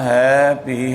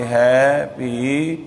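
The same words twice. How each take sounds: First: Said in the usual way. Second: ਹੈ ਭੀ with ਹੈ drawn out long before ਭੀ; slow ਹੈ ਭੀ with a long held ਹੈ; lengthened ਹੈ. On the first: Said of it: "ਹੈਪੀ ਨਹੀਂ ਕਹਿਣਾ". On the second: Shown as a demonstration. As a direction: stretch the ਹੈ in ਹੈ ਭੀ so it never sounds like ਹੈਪੀ. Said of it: "ਹੈ ਨੂੰ ਲੰਮਾ ਕਰਕੇ".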